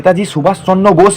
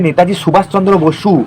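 First: The surname is said as one syllable, Bose. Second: The surname is said as two syllables, Basu. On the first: The speaker calls it wrong. "এটা নেতাজি সুভাষচন্দ্র বোস না" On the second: The speaker calls it right. "এটা হবে নেতাজি সুভাষচন্দ্র বসু"

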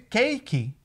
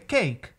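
First: An extra vowel sound follows the final consonant. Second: The word ends cleanly on the final consonant. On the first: The speaker calls it wrong. "ao invés de cake" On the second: The speaker calls it right. "o correto seria cake"

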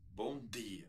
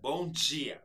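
First: The d in dia is a plain d sound. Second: The d in dia sounds like a hissing dj. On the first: "que nem os portugueses falam" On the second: "Esse som de chiado"

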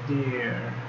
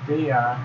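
First: It is said as one contracted syllable. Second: It is said as two full words. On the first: "forma contraída" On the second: "forma não contraída"

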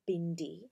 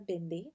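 First: The D is said as a hard D. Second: The D is said softly, not hard. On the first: The speaker calls it wrong. "not bindi. The D sound is a D, not a hard D" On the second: The speaker calls it right. "that's how it's pronounced"

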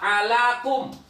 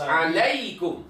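First: The second syllable is a plain 'la' sound. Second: The second syllable is a 'lai' diphthong. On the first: The speaker calls it wrong. "Jadi enggak boleh dibaca kutiba alakum" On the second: The speaker calls it right. "Harus alaikum"

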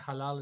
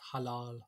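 First: It is said with a British English pronunciation. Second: It has a short first vowel and long second vowel. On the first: This is how people commonly say it in the UK. The speaker calls it wrong. "People say halal in the UK" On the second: This is the proper Urdu pronunciation. The speaker calls it right. "but it's halal"

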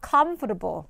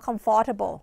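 First: The stress is on the first syllable. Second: The stress is not on the first syllable. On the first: The speaker calls it right. "เราจะไปเน้นที่ comf" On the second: The speaker calls it wrong. "แต่จริงๆคำนี้ไม่ได้อ่านออกเสียงว่า"

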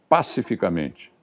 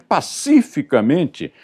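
First: The 'ci' syllable carries no stress. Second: The 'ci' syllable carries stress, as in pacífico. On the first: The speaker calls it wrong. "o locutor me solta uma dessas" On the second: The speaker calls it right. "se é pacífico, só pode ser pacificamente"

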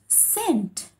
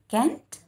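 First: The word starts with an S sound. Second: The word starts with a K sound. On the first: The speaker calls it right. "but sent. This is S-E-N-T, sent" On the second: The speaker calls it wrong. "I think you all are reading as K-E-N-T, Kent. No, this is not Kent"

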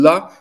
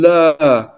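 First: The vowel is said short. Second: The vowel is said long.

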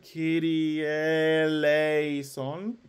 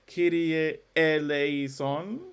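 First: The two words are joined smoothly together. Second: A glottal stop separates the two words. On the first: The speaker calls it right. "it's legato and elided" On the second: The speaker calls it wrong. "There are no glottals, so I'm not going to sing"

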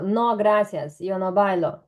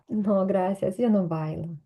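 First: The refusal is said in a rude, curt tone. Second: The refusal is said in a polite, gentle tone. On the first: The refusal is blunt and offensive. "яким тоном ти це скажеш, воно буде звучати, бо дуже грубо" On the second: The refusal is courteous. "Або"

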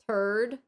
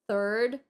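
First: The word is said with a childlike mispronunciation. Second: The word is said with the standard adult pronunciation. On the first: The speaker calls it wrong. "She pronounced third" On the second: The speaker calls it right. "she doesn't pronounce third"

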